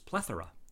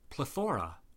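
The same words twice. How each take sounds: First: The stress is on the first syllable. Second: The stress is on the second syllable. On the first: The speaker calls it right. "with a stress on the first syllable" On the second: The speaker calls it wrong. "Then you have a plethora, right? Wrong"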